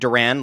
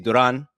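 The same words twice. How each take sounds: First: It sounds like the band name Duran Duran. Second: It is said with a Spanish pronunciation. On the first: Other people say it this way. "I've seen people saying Duran, like Duran Duran" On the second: This is how a Spanish speaker says it. "as a Spanish speaker, say [name]"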